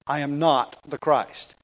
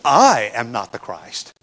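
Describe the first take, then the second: First: "not" drawn out and weighted in a slow reading; stress on NOT. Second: "I" punched loud and long, the rest dropping away; stress on I. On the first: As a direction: lean on the word "not", with "I" unstressed. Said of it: "the emphasis of the statement is not on the negative". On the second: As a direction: hit the pronoun "I" hard, then fall off. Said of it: "better to read this as John saying". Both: Shown as a demonstration.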